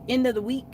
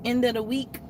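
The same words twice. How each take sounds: The two takes are said the same way.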